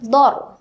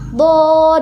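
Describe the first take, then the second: First: The vowel is short and clipped straight away. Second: The vowel is held for a long time. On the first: The speaker calls it wrong. "jangan langsung dibaca dor ya. Bukan dor" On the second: The speaker calls it right. "dipanjangkan dulu sampai uh, dua, uh, tiga alif atau enam harokat"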